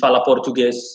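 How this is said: The words run together quickly in one smooth flow. This is how a speaker from Portugal says it. The speaker calls it right. "They simply speak in one fluent motion"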